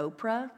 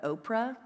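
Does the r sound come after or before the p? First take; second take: after; after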